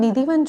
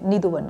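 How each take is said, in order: First: The middle vowel is an 'i' sound. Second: The middle vowel is a 'u' sound. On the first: This is the common everyday form. The speaker calls it wrong. "अब हम निधिवन जो कहते हैं" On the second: This is the real original form. The speaker calls it right. "Real pronounce निधुवन"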